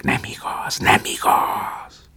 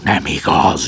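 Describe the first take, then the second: First: Fading, slow whispered echo. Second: Loud cry of denial; shouted denial. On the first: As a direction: let it die away like a cliff echo. Echo of the cliffs. (suttogó visszhang) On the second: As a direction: bellow it out in protest. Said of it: "üvöltött Prométeusz". (kiáltó tagadás) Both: A narrator's reading.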